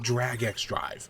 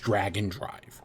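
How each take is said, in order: First: The middle is said as a separate letter X. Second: The middle is blended in, sounding like dragon. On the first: The speaker calls it wrong. "I keep calling it Drag X Drive" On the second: The speaker calls it right. "the official pronunciation is Dragon Drive"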